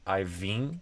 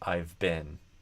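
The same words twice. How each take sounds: First: The b in 'been' is dropped or unclear. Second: The b in 'been' is said clearly. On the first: The speaker calls it wrong. "Instead of" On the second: The speaker calls it right. "it becomes"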